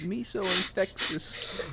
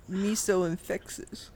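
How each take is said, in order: First: High, slow mock Chinese accent; lightly put-on Chinese accent voice; bad Chinese accent. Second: High, slow mock Chinese accent; bad Chinese accent. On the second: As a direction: repeat it in a put-on Chinese accent. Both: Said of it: "this bad Chinese accent".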